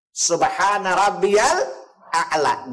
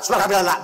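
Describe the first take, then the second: First: The phrase is said slowly and calmly. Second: The phrase is said quickly and rushed. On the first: The speaker calls it right. "Dengan dengan tenang mengucapkan, tidak terburu-buru" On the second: The speaker calls it wrong. "bukan cepat. Subhanallah, bukan"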